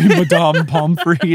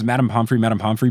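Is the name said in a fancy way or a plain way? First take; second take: fancy; plain. First: The name is said in a fancy, posh way. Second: The name is said in a plain, ordinary way. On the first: "but pronounces it Madame Pomfrey, Madame Pomfrey instead" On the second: "he screams"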